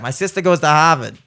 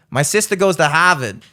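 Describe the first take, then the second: First: "My sister goes to Harvard" with dropped r's; Boston accent. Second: Boston accent. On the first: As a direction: say it like a Boston local. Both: Shown as a demonstration. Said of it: "I can do that".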